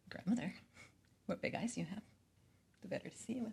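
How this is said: It is read in a sexual, seductive way.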